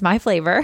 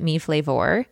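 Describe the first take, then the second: First: The first word is said like 'my'. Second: The first word is said like 'me'. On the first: The speaker calls it right. "but it's My Flavor" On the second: The speaker calls it wrong. "a lot of people pronounce it Me Flavor"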